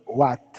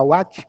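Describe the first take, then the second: First: "what" with a stopped final T, no "tch"; tongue-on-palate T. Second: "what" ending in a Brazilian T, like "uátch"; normal Portuguese T. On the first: Teacher models English "what" for students, T stopped at the palate. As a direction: end "what" with the tongue held on the roof of the mouth. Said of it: "com a língua no céu da boca". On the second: Teacher shows the wrong way, "what" with a "tch" ending. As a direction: say "what" with the final T softened to "tch". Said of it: "falar what com o T normal". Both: Shown as a demonstration.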